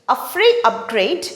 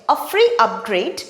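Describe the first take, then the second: The two takes are said the same way.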